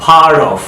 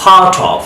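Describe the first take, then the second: First: "part of" as "par-dov"; American flapped "part of"; American soft D. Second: "Part of" as "pah-tov"; crisp T in "Part of", no R; British clear-T "Part of". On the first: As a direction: turn the T in "part of" to a D. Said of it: "আমেরিকানরা ডি এর মতো sound করছে". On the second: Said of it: "ব্রিটিশরা টি এর মতো sound করছে". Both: Shown as a demonstration.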